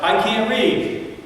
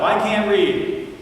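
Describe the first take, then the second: First: Put-on high, slow, sobbing child's wail; child crying out. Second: Put-on high, slow, sobbing child's wail again louder; child crying out. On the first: Neighbor's boy caught in library, high slow sobbing cry. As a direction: cry it out like a scared little boy. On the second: Boy pleading with Brown, high slow sobbing cry. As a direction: wail it like a frightened little boy. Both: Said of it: "the little boy cried out".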